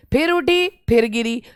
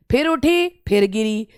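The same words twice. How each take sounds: The two takes are said the same way.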